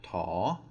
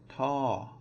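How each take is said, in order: First: The pitch rises across the syllable. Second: The pitch falls across the syllable. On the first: "then we would have a rising tone" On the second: "it is going to be a falling tone"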